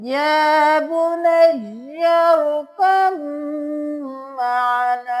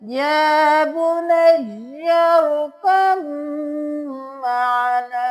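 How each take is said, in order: First: The b merges into a long, nasal m. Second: The same.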